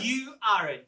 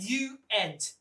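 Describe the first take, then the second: First: The negative is pronounced with an 'ar' vowel. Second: The negative is pronounced with an 'ay' vowel. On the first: "Different pronunciations" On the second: "Different pronunciations"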